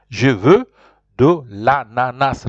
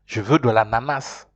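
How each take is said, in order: First: Slow, emphatic French with "Je veux" set apart; repeat-after-me model. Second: Said in the usual way. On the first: Shown as a demonstration. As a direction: break it up slowly for learners. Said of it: "Repeat after me". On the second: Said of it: "There's no other way you're saying it".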